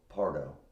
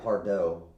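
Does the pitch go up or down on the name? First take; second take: down; up. First: The pitch goes down on the name. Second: The pitch goes up on the name. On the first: The speaker calls it right. "should have gone down" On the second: The speaker calls it wrong. "I went up when I should have gone down"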